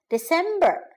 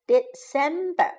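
First: Said in the usual way. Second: "December" broken into separate syllables; teacher splitting "December" up for learners. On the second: Shown as a demonstration. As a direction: sound out "December" with small gaps between syllables. Teacher models month syllable by syllable.

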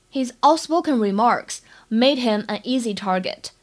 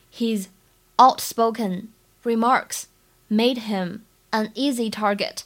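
First: Said in the usual way. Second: Slow, phrase by phrase with pauses; unhurried dictation with gaps between phrases; slow model reading. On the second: Shown as a demonstration. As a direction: read it out in careful chunks for learners. Teacher repeats it slowly in chunks.

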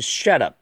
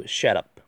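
First: "shut up" as two separate words; unlinked. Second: "shut up" run together as one word; linked speech. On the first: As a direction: pause between "shut" and "up". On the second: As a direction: carry the t of "shut" straight into "up". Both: Shown as a demonstration. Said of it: "连读shut up".

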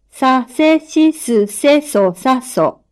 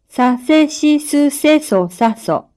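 First: Dictating. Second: Said in the usual way. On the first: Shown as a demonstration. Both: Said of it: "発音を聞いて".

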